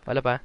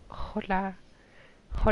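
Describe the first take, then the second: First: Said in the usual way. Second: Higher, softer silly voice; put-on hola. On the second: Friend repeats his hello in a higher, softer goofy voice.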